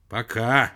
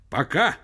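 First: Louder, hateful echo; with hatred. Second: Higher, louder short goodbye; curt phone sign-off. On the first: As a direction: repeat the goodbye with loathing. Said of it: "с ненавистью повторил Персиков". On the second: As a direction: sign off abruptly. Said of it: "цокнула трубка и стихла". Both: A narrator's reading.

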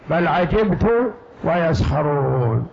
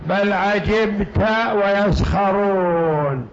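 First: عجبت read 'ajibtu, ending in -u; damma on the ta. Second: عجبت read 'ajibta, ending in -a; fatha on the ta. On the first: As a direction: recite slowly, عجبت closing on a rounded "tu". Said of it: "على قراءة ضم التاء". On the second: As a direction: recite slowly, عجبت with an open "ta" ending. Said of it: "على قراءة فتح التاء". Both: Shown as a demonstration.

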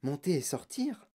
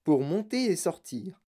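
First: Soft questioning murmur; hushed, questioning inner voice; puzzled thought. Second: Slow, deliberate read-out; measured reading of a sign; reading a label. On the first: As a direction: wonder it to yourself, softly. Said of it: "pensa Charlie". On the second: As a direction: read it out slowly, word by word. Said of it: "Ils lurent". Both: A narrator's reading.

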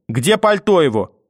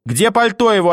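First: Sharp, raised demand for the coat. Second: Higher and louder, insisting; louder demand. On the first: Grandmother demands the boy's coat, sharply. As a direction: bark the question. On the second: Grandmother repeats the demand for the coat, shouting. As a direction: shout the question now. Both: Acted.

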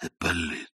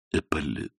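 First: Dying mother-in-law softly calls her son-in-law, faintly; barely voiced, lying weak on the pillows; faint whispered name. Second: Faint repeated name. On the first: Dying old woman to Ippolit, a faint murmur. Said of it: "прошептала она явственно". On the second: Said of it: "повторила теща". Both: A narrator's reading.

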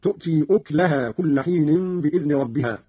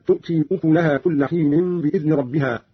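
First: أكلها said uklaha, kaf without vowel; Qalun's reading. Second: Said in the usual way. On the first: Shown as a demonstration. Teacher shows Qalun's reading, أكلها as uklaha. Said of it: "قرأ قالون بضم الكاف هكذا". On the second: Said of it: "قرأ قالون بضم الكاف".

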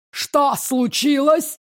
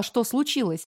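First: Growled. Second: Said in the usual way. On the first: Acted. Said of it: "прорычала женщина". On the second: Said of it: "Сначала я даже не поняла".

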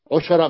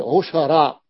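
First: عشراء said with i, as ishara; عشراء mispronounced with kasra on the ayn; wrong first vowel. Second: عشراء slowly with u, as u-sha-ra; عشراء pronounced ushara, measured; correct first vowel. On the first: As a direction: give the rejected i vowel in عشراء. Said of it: "ما نقول عشراء". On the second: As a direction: draw out عشراء with damma on the ayn. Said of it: "نقول عشراء". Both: Shown as a demonstration.

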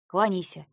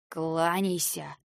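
First: Commanding order. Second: Slow hissed threat; hissed order. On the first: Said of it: "снова приказала она". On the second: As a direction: hiss the order slowly. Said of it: "прошипела Клира". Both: A narrator's reading.

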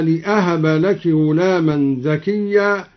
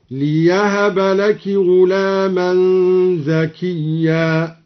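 First: Said in the usual way. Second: Slow chanted verse with ليهب said "li-yahaba"; measured recitation, y replacing the hamza in ليهب; yaa after lam. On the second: Shown as a demonstration. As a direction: put a clear y after the l in ليهب. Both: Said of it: "بالياء بعد اللام".

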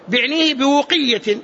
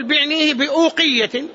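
First: بوقية with a waw where the hamza was; slow بوقية without a glottal stop; hamza turned to waw. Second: A clear hamza in بأوقية; slow بأوقية with the hamza sounded; hamza pronounced. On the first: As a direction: say بوقية as "bi-wqiyya", slowly. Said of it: "فأبدل الهمزة واوا". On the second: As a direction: say بأوقية as "bi-ʾūqiyya", slowly, with a glottal stop. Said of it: "وإن حققتها تقول". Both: Shown as a demonstration.

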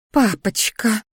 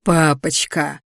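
First: Pouting "Папочка", lips pushed out. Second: Mock her pout with venom; mocking mimicry. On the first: Daughter pouting to her father, wheedling. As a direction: wheedle like a sulky child. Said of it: "надула губы Криштия". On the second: Brother mocking his sister's whine, caustic. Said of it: "едко передразнил я". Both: A narrator's reading.

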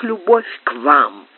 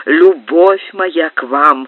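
First: Said in the usual way. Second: "любовь моя к вам" slow and louder, weight on любовь; strong stress. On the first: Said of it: "не осталось уже и следа гнева". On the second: A narrator's reading. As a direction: lean hard on любовь, slowly. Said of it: "с сильным ударением повторил маркиз". (с сильным ударением на «любовь»)

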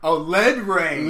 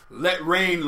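First: "lead" said slowly with a D, rhyming with "bed"; lead, like the metal. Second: "Let rain" with a clear T in "Let"; let, not lead. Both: Retold or imitated. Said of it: "it's not let rain, it's lead rain".

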